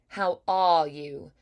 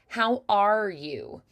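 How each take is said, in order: First: It has a British accent with no R. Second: It has an American or Irish harsh R.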